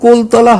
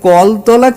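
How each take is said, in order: First: The first vowel is a closed 'o' sound. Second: The first vowel is an open 'aw' sound. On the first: The speaker calls it wrong. "কোলতলা হবে না কোনো মতে" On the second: The speaker calls it right. "কলতলা কিন্তু"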